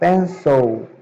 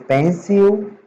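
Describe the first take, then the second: First: The word ends like 'pensou'. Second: The word does not end like 'pensou'. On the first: The speaker calls it right. "a gente pronuncia pencil ... Como se estivesse falando pensou" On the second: The speaker calls it wrong. "Em vez de pencil"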